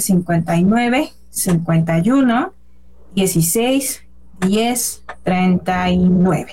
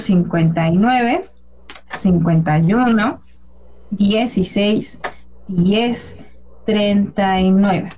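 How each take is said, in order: First: The number is read at normal speed. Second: The number is read more slowly.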